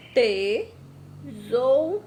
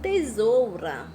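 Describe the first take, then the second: First: "tesoura" stretched very slowly, syllable by syllable; "tesoura" sounded out slowly to children; slow syllable reading. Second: "Tesoura" said clearly, slightly slow; "Tesoura" repeated clearly for the class; clear slow read. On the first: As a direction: draw "tesoura" out slowly for pupils. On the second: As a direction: repeat "Tesoura" as a clean whole word. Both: Shown as a demonstration.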